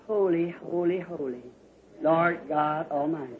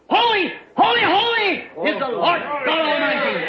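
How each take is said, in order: First: It is said lightly and softly. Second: It is said loudly, almost screamed.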